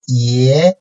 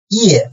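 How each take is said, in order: First: The pitch rises from mid to high. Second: The pitch falls sharply from high to low.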